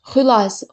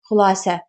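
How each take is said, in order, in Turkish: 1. Vurgu birinci hecede. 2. Vurgu son hecede. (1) "Vurğu əvvələ düşəndə olur modal söz" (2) "vurğu sona düşəndə olur isim"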